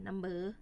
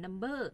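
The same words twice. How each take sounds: First: "นัมเบอร์" with an unmarked mid tone on เบอร์; common level tone. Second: "นัมเบอร์" with the mai tho tone on เบอร์; mai tho variant. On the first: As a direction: say "นัมเบอร์", keeping the last syllable in the common tone. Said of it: "แม่นเสียงสามัญ". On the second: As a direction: say "นัมเบอร์", toning the last syllable as if written เบ้อ. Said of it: "บางเทื่อได้ยินออกเสียงเป็น". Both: Shown as a demonstration.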